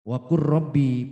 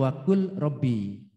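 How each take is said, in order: First: The l merges into the following r sound. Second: The l is kept clearly before rabbi. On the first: "akhirnya menjadi waqur rabbi" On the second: "Tulisannya wakul"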